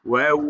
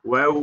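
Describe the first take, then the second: No difference in how they are said.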